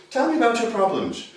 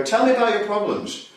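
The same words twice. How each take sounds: First: A lightly voiced formal therapist, face to face; a hint of a detached clinician asking from across the room; stiff therapist. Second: A light hint of a therapist talking down to a patient; barely changed, looking down at a client on the couch; therapist over a lying patient. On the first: Therapist questioning a client face to face, lightly voiced formal tone. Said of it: "classical therapy is like this". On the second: Therapist speaking down to a reclining client, lightly voiced. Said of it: "the person lies down lower than you and you go". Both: Shown as a demonstration.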